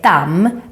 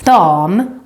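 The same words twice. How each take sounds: First: The vowel is cut short. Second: The vowel is held long. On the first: It means pond or dust. The speaker calls it wrong. "Don't say dam, because that can mean both pond or dust" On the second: It means lady. The speaker calls it right. "with a long Swedish a"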